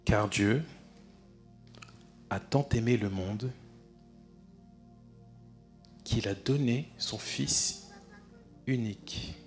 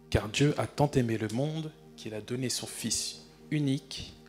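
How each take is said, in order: First: It is read very slowly and deliberately. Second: It is read at a quicker, ordinary pace.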